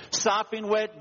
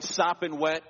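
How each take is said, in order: First: "sopping wet" raised high and louder, falling on "wet"; "sopping wet" preached with high, falling emphasis; emphatic preaching. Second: Said in the usual way. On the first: Acted. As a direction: lean hard into "sopping wet". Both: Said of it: "The Father doesn't care how".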